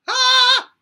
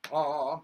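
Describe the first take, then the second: First: Very high, loud head voice ah. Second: Chest voice. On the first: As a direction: ring it up into head voice. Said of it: "to the head voice". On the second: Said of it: "from the chest voice". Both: Shown as a demonstration.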